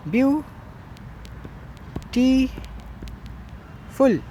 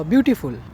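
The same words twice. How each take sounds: First: "ब्यूटीफुल" very slowly in three parts with long pauses; stretched, separated syllables in "ब्यूटीफुल". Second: Said in the usual way. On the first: Shown as a demonstration. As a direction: sound out "ब्यूटीफुल" as byu, tee, ful. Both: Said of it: "इसमें syllables अगर देखो".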